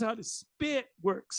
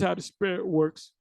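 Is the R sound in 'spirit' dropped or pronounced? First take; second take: dropped; pronounced. First: The word spirit is said without R sound. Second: The word spirit keeps its R sound.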